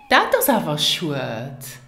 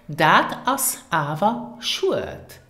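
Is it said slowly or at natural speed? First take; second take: natural speed; slowly. First: It is said at natural speed. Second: It is said slowly and carefully.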